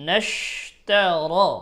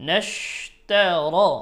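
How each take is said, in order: No difference in how they are said.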